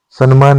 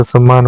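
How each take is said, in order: First: सन्मान with a clear न before म; wrong form. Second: सम्मान with a doubled म, no न; correct form. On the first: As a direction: say सन्मान, san-maan. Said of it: "सन्मान नहीं होता है". (सन्मान, गलत रूप, न की ध्वनि) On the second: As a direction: say सम्मान, sam-maan. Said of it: "सम्मान होता है". (सम्मान, सही रूप, दोहरा म) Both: Shown as a demonstration.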